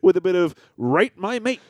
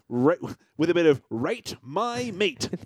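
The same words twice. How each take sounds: First: The words are spoken casually, not clearly enunciated. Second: The words are spoken with crisp, careful enunciation. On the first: The speaker calls it wrong. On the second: The speaker calls it right.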